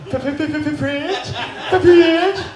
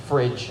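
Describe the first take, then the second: First: Fridge stuttered on the f, then laughed; mock stutter. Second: Said in the usual way. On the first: Shown as a demonstration. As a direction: repeat Fridge with a stuck f sound. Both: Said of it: "We're all fucking stuttering tonight".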